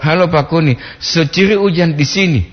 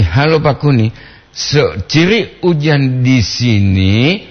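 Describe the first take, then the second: First: "seciri hujan di sini" with a falling end, like a statement; second intonation. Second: "seciri hujan di sini?" asked slowly, rising at the end; rising question tune. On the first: Radio host demonstrates the second reading, falling statement tune. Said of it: "Intonasi yang kedua". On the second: Radio host shows listeners the first reading, rising question. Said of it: "Itu intonasinya satu". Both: Shown as a demonstration.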